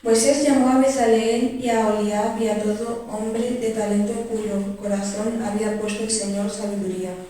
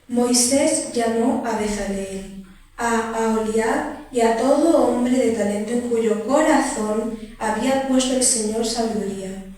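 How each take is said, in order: First: It is read at normal speed. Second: It is read more slowly.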